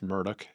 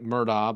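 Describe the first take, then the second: First: The name ends with a 'dock' sound. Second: The name is read as it is spelled. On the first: The speaker calls it right. "but it's Murdoch" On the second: The speaker calls it wrong. "It looks like Murdaugh"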